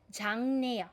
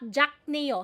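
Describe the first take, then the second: First: The first syllable ends with an ng sound. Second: The first syllable ends with a k sound. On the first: The speaker calls it right. "Ang basa po nito ay 장네요" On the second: The speaker calls it wrong. "So that's not 작네요"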